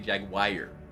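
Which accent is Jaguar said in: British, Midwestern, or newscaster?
Midwestern. It is said in a Midwestern accent, ending like wire. "in the Midwest, where I'm from, they say Jaguar. A wire of Jag"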